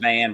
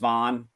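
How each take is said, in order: First: The vowel is the short 'a' of 'cat'. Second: The vowel is the open 'aw' of 'dawn'. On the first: "I'll stick with Van" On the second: "I like Vaughn better"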